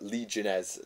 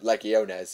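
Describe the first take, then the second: First: The word has an anglicized, non-Latin pronunciation. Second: The word has a Latin-style pronunciation. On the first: The speaker calls it wrong. "I've recently corrected" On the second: The speaker calls it right. "to try and fit a bit more with the Latin pronunciation"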